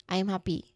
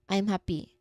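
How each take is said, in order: No difference in how they are said.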